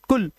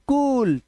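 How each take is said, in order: First: The vowel is short and clipped. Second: The vowel is long and drawn out. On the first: The speaker calls it wrong. "ये मत पढ़ना कुल" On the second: The speaker calls it right. "Long बाउल sound"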